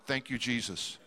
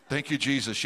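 First: Low, soft laugh through the words; laughing thanks. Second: Said in the usual way. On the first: Retold or imitated. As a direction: chuckle it out with relief. Relieved at being only bidder.

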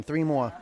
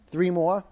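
First: THREE MORE falling at the end, as a statement; downward, decided THREE MORE; firm statement. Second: THREE MORE rising like a question; unsure upward lilt on THREE MORE. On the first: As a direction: say THREE MORE as a settled instruction, pitch dropping. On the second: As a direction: say THREE MORE as if asking, pitch climbing at the end. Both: Real, not acted. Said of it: "I said that like a question".

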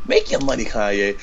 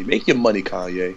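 First: Quoting a radio host's catchphrase. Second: Smooth radio host sign-off. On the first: Shown as a demonstration. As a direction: say it like a DJ shouting out a caller. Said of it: "that's what radio hosts say". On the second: Acted. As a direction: toss it off like a DJ on air. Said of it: "I sound like a radio host".

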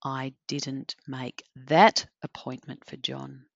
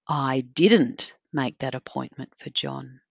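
First: That singled out with extra weight, the rest even; emphasis moved to that, kept soft; stress on that. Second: Didn't leaned on, the rest of the sentence even; weight on didn't as a denial; didn't stressed, low and calm. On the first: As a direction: point at that one appointment. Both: Shown as a demonstration. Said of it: "If I say that a couple of different ways".

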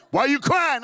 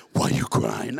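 First: Loud, higher-pitched demand; startling dad shout. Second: Low, loud imitated father; deep dad voice. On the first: Retold or imitated. Dad comes round the corner to crying son, startling shout. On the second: Dad rounding corner to crying son, deep voice. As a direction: demand it in a big dad's deep voice. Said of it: "My daddy had a deep voice".

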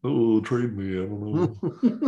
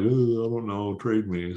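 First: Put-on slow, drawn-out French Canadian accent, a bit higher; slow down and mimic a French Canadian player asking to be traded. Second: Put-on French Canadian accent. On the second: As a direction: lightly do a French Canadian hockey player shrugging off trade talk. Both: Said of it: "That's my best, uh, French Canadian accent".

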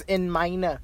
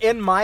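First: "in meine" as German, MY-nuh; German "in meine", ending in a soft uh; German pronunciation. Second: Said in the usual way. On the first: Shown as a demonstration. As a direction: say "meine" with two syllables. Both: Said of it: "So in my is in meine".

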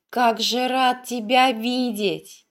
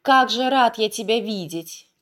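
First: Slow, savoring each word; happy, slower repeat. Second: Happy. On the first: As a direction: repeat it slowly, glowing with joy. (радостно и медленно) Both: A narrator's reading. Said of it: "Счастливо улыбаясь, повторял юноша".

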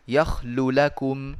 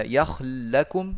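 First: "يخل لكم" as yakhlu lakum, a short u between the lams; إظهار. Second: "يخل لكم" as one word, yakhl-lakum, with a held lam; إدغام. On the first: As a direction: slowly sound both lams of "يخل لكم" apart. (إظهار اللامين في "يخل لكم" بضم الأولى) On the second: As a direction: slowly merge the two lams of "يخل لكم". (إدغام اللام في اللام في "يخل لكم") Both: Shown as a demonstration. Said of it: "فجاز الإظهار والإدغام".

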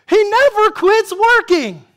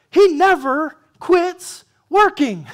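First: Never punched high and loud; stress on never. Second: Said in the usual way. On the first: Shown as a demonstration. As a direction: hit the word never, louder and higher.

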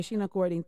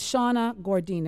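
First: "Sheena Gordine" with a clear SHEE vowel; corrected name. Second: Said as "Shauna Gordine", with a SHAW vowel; "Shauna Gordine", the wrong first name; mispronounced name. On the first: Host correcting herself to the guest's name "Sheena". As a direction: say "Sheena" as SHEE-nuh, carefully. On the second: Host misreading the guest's name as "Shauna". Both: Real, not acted. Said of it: "It's actually Sheena".

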